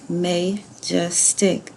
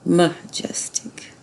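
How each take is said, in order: First: The first vowel is a long A sound. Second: The first vowel is a weak schwa sound. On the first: The speaker calls it wrong. "that was open ... No, that's not right" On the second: The speaker calls it right. "make that a schwa. ... That sounds better"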